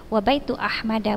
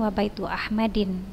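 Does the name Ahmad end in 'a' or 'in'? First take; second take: a; in. First: The name ends in a plain short 'a' sound. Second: The name ends in an 'in' sound. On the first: The speaker calls it right. "Jadi wabaitu Ahmada" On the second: The speaker calls it wrong.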